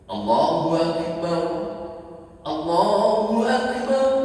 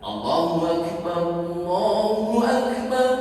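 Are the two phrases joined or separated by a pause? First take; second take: paused; joined. First: A pause separates the two phrases. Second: The two phrases run together without a pause. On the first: "yang diputus" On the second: "Yang tidak diputus dilangsungkan"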